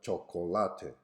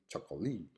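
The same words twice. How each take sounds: First: Four syllables, stress on the third. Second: Three syllables, stress on the third. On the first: This is the Spanish pronunciation. "having four syllables with the stress on the third one" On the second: This is the Chinese pronunciation. "a three-syllable word with a stress on the third syllable"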